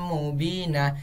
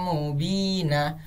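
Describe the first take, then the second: Both takes have the same delivery.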